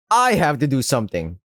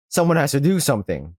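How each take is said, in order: First: "I" emphasized with resolve; stress on I. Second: Said in the usual way. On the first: Acted. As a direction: put the weight on "I", then fall away. Narrator resolves to act herself.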